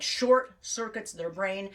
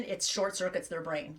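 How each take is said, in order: First: "short" stretched out and punched; slow, weighted words with stress on "short"; emphatic repeat. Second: Said in the usual way. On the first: Real, not acted. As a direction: lean hard and slowly on "short".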